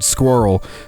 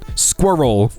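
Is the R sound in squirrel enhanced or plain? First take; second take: plain; enhanced. First: The R sound is plain, not drawn out. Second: The R sound is strong and drawn out.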